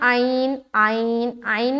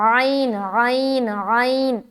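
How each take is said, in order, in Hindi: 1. पहली आवाज़ उथली है, गले से नहीं निकलती। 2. पहली आवाज़ गले की गहराई से निकलती है। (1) "जो बोलते हैं ना आइन आइन आइन नहीं होता" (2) "ऐसा बिल्कुल एकदम अंदर से निकालना"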